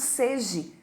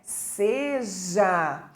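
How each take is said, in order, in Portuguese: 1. A palavra termina com a vogal 'e'. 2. A palavra termina com a vogal 'a'. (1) "A gente ouve muitas as pessoas falando seje" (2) "o correto é seja"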